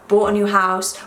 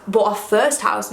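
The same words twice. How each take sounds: First: Said in the usual way. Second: Slowed, leaning hard on "first" in "bought our first house"; stress on first. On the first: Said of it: "not just a new house". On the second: Shown as a demonstration. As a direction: land on "first" and slow the phrase. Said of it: "but our first house".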